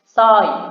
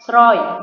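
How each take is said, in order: First: The word begins with a plain s sound. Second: The word begins with an sr sound. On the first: The speaker calls it right. "tapi dibaca dengan kata soy" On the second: The speaker calls it wrong. "dia tidak dibaca dengan kata sroy"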